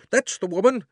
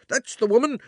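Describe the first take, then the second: First: High, loud shout punching That's; crying out again. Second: High, loud accusing shout; furious shopkeeper crying out. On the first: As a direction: repeat the accusation, hitting That's. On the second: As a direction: yell it out, pointing at the thief. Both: A narrator's reading. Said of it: "cried the fat man".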